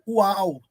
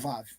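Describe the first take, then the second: First: The word begins with a W sound. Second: The word begins with a V sound. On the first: The speaker calls it right. "Mas W é U, U mesmo" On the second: The speaker calls it wrong. "E nunca Vav"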